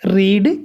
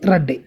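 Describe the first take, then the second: First: The vowel is long, like 'reed'. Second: The vowel is short, like 'red'. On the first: "spelling റീഡിൻ്റെ റെഡിൻ്റെ ഒന്ന് തന്നെയാണ്, പക്ഷേ ഉച്ചാരണം മാത്രം മാറ്റം വരും" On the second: "has have had എന്നൊക്കെ ആണെങ്കിൽ അവിടെ റെഡ് ആയിരിക്കും വരിക"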